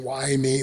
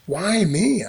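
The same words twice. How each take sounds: First: It sounds self-pitying and complaining. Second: It sounds wondering and amazed.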